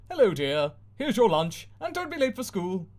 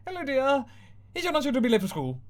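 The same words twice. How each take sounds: First: High, sing-song mum reminder; cheery TV mum. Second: Higher and faster, forced cheer; strained TV mum. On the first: Mum on screen sending daughter off, chirpy and high. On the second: Mum on screen repeating herself, strained and rushed. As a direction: rattle it off through a strained smile. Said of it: "Mum smiles, strains". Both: Acted.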